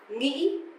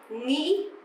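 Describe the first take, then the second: The two takes are said the same way.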